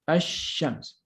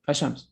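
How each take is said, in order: First: The sh sound is long and doubled. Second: The sh sound is short, not doubled. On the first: The speaker calls it right. "We say ash-shams" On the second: The speaker calls it wrong. "We don't say ashams"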